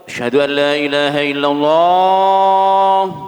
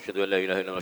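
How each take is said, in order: First: It is said slowly and carefully. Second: It is said too fast.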